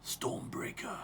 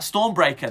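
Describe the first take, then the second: First: It is said in a deep, put-on voice. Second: It is said in a plain, normal voice.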